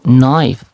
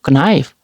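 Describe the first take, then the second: First: The initial K sound is silent. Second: The initial K sound is pronounced. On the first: The speaker calls it right. "So knife" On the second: The speaker calls it wrong. "Don't say like knife"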